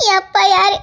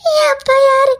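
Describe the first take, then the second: First: Said in the usual way. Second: Higher, louder, breaking into sobs; anguished cry. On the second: Acted. Girl begs to know who her father is, sobbing. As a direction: cry the question out in despair.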